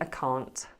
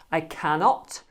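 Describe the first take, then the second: First: The words are said as one contracted form. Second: The words are said in full, uncontracted. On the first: "it's more common to say" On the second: "you can say"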